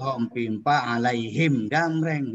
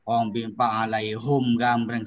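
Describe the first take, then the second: First: The third word ends with a 'him' sound. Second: The third word ends with a 'hum' sound. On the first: The speaker calls it right. "Yang betul" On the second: The speaker calls it wrong. "salah tuh"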